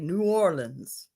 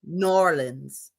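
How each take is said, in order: First: It is said the general American way. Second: It is said the local New Orleans way.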